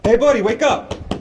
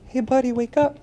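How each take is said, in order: First: It is shouted loudly. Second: It is said quietly. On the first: This gets attention and brings help. The speaker calls it right. "I want you to be loud" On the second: This will not wake the person. The speaker calls it wrong. "am I really going to wake him up?"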